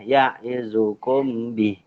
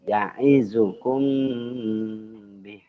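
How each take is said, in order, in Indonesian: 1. M diucapkan dengan jelas tanpa dengung hidung. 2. M disamarkan dengan dengung hidung.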